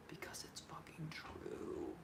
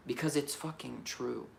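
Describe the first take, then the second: First: Slow, breathy whispered repeat; a slow whispered echo of the line before. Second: Said in the usual way. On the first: Real, not acted. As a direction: hush it down and drag it out. Repeats the line, whispered second time.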